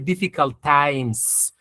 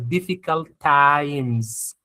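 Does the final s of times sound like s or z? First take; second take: s; z. First: The final s is a hissing s sound. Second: The final s is a buzzing z sound. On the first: The speaker calls it wrong. "We don't say" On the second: The speaker calls it right. "is going to be z, z, like this"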